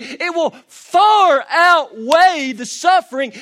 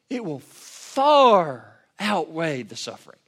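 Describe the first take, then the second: First: High, loud and slow, leaning on far; drawn-out preached shout; shouted preaching climax. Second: Slow, firm, leaning on far at normal pitch; settled, weighty repeat; emphatic slow restatement. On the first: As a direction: thunder the promise to the room. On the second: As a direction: let it land after the shout. Restated quietly after climax. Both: Acted.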